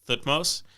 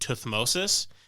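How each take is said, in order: First: The name ends with the single syllable mose. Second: The name ends with the syllables mosis. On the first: This is how many modern anthropologists say it. "a lot of modern anthropologists pronounce it Thutmose" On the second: This is how some people, especially British ones, say it. "Some people, particularly British, pronounce his name Tuthmosis"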